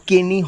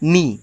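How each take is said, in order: First: The word begins with a k sound. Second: The word begins with an n sound. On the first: The speaker calls it wrong. "এটার উচ্চারণ কেনি হয় না" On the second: The speaker calls it right. "এটার উচ্চারণ হয় নি"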